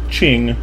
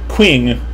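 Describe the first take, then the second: First: The Q is read with a Chinese sound. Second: The Q is read as an English letter. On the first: The speaker calls it right. "that is obviously not how you say Qing" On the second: The speaker calls it wrong. "if you write a Q in English, I'm going to say something like Qing"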